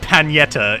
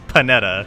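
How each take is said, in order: First: The middle consonant sounds like 'ny'. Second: The middle consonant sounds like plain 'n'. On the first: The speaker calls it wrong. "There's no tilde. It's not Panetta" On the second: The speaker calls it right. "It's Panetta"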